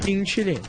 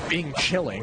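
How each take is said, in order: First: The last word ends without an ng sound. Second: The last word ends with an ng sound. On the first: The speaker calls it right. "There's no second G" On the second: The speaker calls it wrong. "obviously it's not Bing Chilling"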